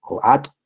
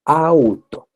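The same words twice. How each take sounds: First: "ato" with the u dropped, lightly imitating a child; toddler mispronunciation. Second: "auto" said carefully with a clear au, higher and louder; clear model word. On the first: Teacher to students, imitating a toddler's "ato". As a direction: mimic a small child's "ato". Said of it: "en vez de decir auto". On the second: Shown as a demonstration. Teacher showing students how adults model "auto". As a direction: model "auto" for a child to copy. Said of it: "Entonces uno dice auto".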